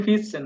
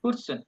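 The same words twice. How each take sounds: First: ফিরসেন said clearly with a plain r; our pronunciation. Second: ফুসসেন said high, the n swallowed into a round ss; German rounded pronunciation. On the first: Shown as a demonstration. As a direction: give ফিরসেন the clear learner way. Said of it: "আমরা বলি ফিরসেন". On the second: Retold or imitated. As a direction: imitate how Germans blur ফুসসেন. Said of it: "এমন বব উচ্চারণ করে".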